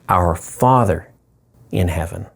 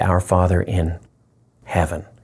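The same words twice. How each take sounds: First: The stress falls on the word Father. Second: The stress falls on the word heaven.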